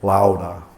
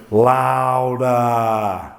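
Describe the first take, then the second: First: Said in the usual way. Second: Drawn-out urging. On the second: Shown as a demonstration. Urging audience to scream silently louder.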